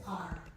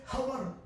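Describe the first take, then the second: First: The word starts with a vowel sound. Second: The word starts with an h sound. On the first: The speaker calls it right. "we say R. The pronunciation of the word is beginning with O" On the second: The speaker calls it wrong. "we don't say hover"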